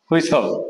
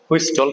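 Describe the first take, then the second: First: The middle t is left silent. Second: The middle t is clearly pronounced. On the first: The speaker calls it right. "এখানে টির উচ্চারণটা হবে না" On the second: The speaker calls it wrong. "এটাকে আমরা অনেকেই বলবো হুইস্টল"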